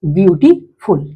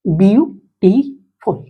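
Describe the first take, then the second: First: Said in the usual way. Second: beautiful drawn out slowly as beau-ti-ful; teacher stretches beautiful into three slow beats; slow syllable split. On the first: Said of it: "try syllable word". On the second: Shown as a demonstration. Teacher to class, splitting beautiful slowly. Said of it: "पहले इसको देख लेते हैं".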